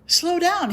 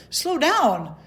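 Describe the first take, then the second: First: Even higher, louder plea; rising alarm. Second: Higher, louder mock panic; alarmed plea. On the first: Retold or imitated. Begging the cardiologist again, climbing higher in alarm. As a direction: push harder, climbing into panic. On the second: Begging the cardiologist to wait, higher mock alarm. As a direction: hold up both hands with your voice. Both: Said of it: "And I'm like".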